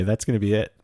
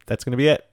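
First: Said in the usual way. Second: Higher and louder, rising at the end; louder emphatic repeat. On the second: Real, not acted. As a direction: repeat it with more punch.

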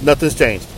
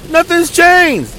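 First: Said in the usual way. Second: Much higher and very slow, disbelieving; exasperated repeat. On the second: Retold or imitated. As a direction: stretch out nothing's changed in disbelief.

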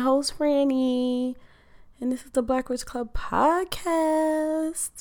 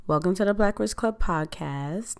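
First: High, lilting announcer voice on podcast; sing-song intro. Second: Said in the usual way. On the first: Acted. Host announcing the show name to listeners, high sing-song. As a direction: sell the show name like a jingle.

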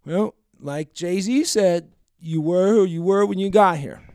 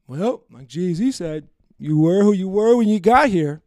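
First: Slow, drawn-out quote with a louder end; lightly mock a tipsy woman quoting a lyric; mild drunk woman impression. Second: Put-on slow, slurred drunk quote, getting louder at the end; drunk woman impression. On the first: Retelling the drunk woman's line at the bar. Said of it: "she says something in response to me". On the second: Mocking the drunk woman he went home with. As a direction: drawl it out like a drunk girl quoting a lyric. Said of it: "That's exactly how she sounds ... that's my impersonation".

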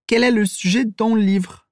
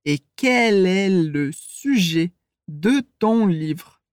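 First: "le" and "de" with their E cut; quick native reduction; fast native speech. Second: Slow, every syllable spelled out; slow teaching pace; very slowly. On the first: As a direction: clip the final E in "le" and "de". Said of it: "quando a gente fala rápido". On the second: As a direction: drag each word apart. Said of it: "Se eu falar bem devagar". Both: Shown as a demonstration.

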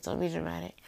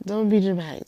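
First: Said in the usual way. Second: Much louder self-rebuke; loud self-scolding. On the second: Real, not acted. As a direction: snap at yourself to pull together.

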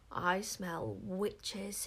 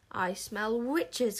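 First: Very slow, drawn-out creepy hiss; hissed squeaky voice. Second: Slow, ringing cry of doom. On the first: Witchmeller sniffing the crowd, slow hiss. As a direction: stretch each word out like a sniffing witch-hunter. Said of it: "hissed the Witchmeller in a high, squeaky voice". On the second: Witchmeller crying out again, voice of doom. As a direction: proclaim it to the heavens, stretching the words. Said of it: "in a voice of doom". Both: A narrator's reading.

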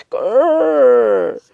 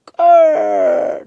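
First: Loud, high-pitched creaking door imitation. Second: Low, loud door creak imitation; creaking door noise. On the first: Narrator showing the door open once more, high creak. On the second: Narrator showing the bedroom door opening, low creak. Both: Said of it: "that's the door noise".

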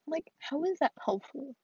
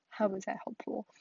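First: Pitched up, rising in disbelief; genuinely baffled question; incredulous. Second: Said in the usual way. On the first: Real, not acted. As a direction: ask it like you can't believe it.

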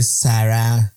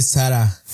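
First: "Sara" very slow, final a drawn out; mock correct pronunciation. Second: Said in the usual way. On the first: Imitating the girl's lesson, mock-teacherly slow "Sara". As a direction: stretch "Sara" into a pompous correction. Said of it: "se dice Sara". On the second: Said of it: "no se dice Sara".

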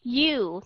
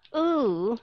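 First: U drawn out as yoo; glided yoo sound. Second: U drawn out as oo; plain oo sound. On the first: Teacher showing the harder sound, glided demonstration. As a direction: slowly say "u" with a y in front. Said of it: "u thì nó hơi khó". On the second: Teacher comparing the similar sounds, glideless demonstration. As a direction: slowly say "u" with no y-glide. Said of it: "Rất là giống nhau". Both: Shown as a demonstration.

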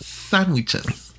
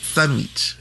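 First: "Sandwiches" with a light Spanish lilt, higher; little Spanish accent. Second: "Sandwich" with a Spanish ee vowel; little Spanish accent. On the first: Teaching her friend, light Spanish-accented "Sandwiches". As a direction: say "Sandwiches" the Salvadoran way, pitch up. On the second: Showing how it's said at home, accented "Sandwich". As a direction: say "Sandwich" as "sanwitch" with a Spanish lilt. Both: Shown as a demonstration. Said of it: "you have to say it with a little accent".

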